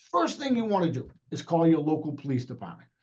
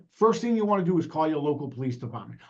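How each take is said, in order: First: A bit slower, more deliberate; slow down for the listeners; slower on request. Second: Quick, rushed delivery; fast pace. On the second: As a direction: rattle it off at speed. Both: Shown as a demonstration. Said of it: "I will talk a little, uh, a little slower".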